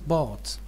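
It is said with an American vowel. "American is bot"

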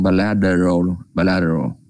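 An American accent, the t flapped like d. "Nếu mà theo người Mỹ đọc thì chữ tờ nó sẽ lướt lên"

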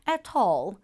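It is said in a British accent. "영국식으로는"

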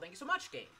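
It is said sincerely, as real thanks.

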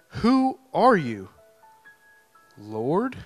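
It is asked in an awestruck, alarmed tone.

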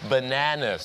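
It is said in an American accent. "ถ้าชาวอเมริกาจะเป็น"

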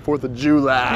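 It is said in a broad country accent. This is how rural people say it. "they say 4th of July"

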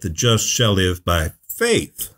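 The word faith is stressed.

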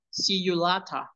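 It is said in a British accent. "los británicos dicen see you later"

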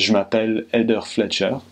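It is spoken with a natural French accent. The speaker calls it right. "the way a French person would say it is"

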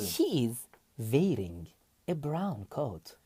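It is read slowly with Turkish-style pronunciation. The speaker calls it wrong. "Yavaş okuyorum. Türkçe okuyorum izle"

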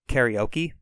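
It is said with English-style sounds and stress. The speaker calls it wrong. "we pronounce it karaoke"

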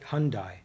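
The name is said with a Midwestern American pronunciation. This is how people in the region say it. "I'm from the Midwest. We pronounce it Hyundai"

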